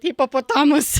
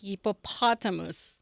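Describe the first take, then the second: First: It is said in a Philippine English accent. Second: It is said in an American accent.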